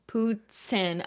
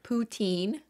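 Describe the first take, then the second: First: It is said with a French-style pronunciation. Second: It is said with an English-style pronunciation.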